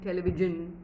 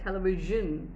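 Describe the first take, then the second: First: The middle consonant is replaced by another sound. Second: The middle consonant is a soft zh sound. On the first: The speaker calls it wrong. "They don't do that, and they stick with" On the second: The speaker calls it right. "it's a little difficult to create zh"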